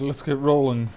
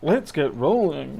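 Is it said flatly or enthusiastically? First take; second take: flatly; enthusiastically. First: It is said flatly, without enthusiasm. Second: It is said with lively enthusiasm.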